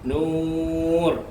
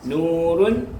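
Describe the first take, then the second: First: The word stops on a bare r sound. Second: The word ends with a final -un sound.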